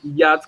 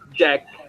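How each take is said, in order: First: The name begins with a Y sound. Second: The name begins with a J sound. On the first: The foreign spelling is read by local letter rules. The speaker calls it wrong. "we read it as Yatsk, which is very strange" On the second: The name is said as it is heard. The speaker calls it right. "So J, J sound"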